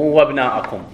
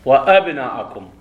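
First: وابناءكم with the hamza swallowed, wa-bnaakum; the wrong joined reading; hamza dropped. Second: وأبناءكم with a clear hamza, wa-abnaakum; the right cut reading; hamza pronounced. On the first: Teacher showing students the wrong joined reading. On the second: Teacher showing students the right reading with the hamza. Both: Shown as a demonstration. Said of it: "مو وابناءكم".

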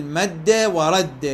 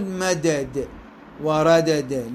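First: "مد ورد" as madda wa radda; slow, hold one strong d in each of "مد ورد"; fuse the two d sounds in "مد ورد"; doubled dal merged. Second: "مدد وردد" as madada wa radada; slow, give each d its own vowel in "مدد وردد"; dal unmerged, wrong. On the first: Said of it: "لا بد من الإدغام". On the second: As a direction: pull the two d sounds apart in "مدد وردد". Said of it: "لا، مو صحيح". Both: Shown as a demonstration.

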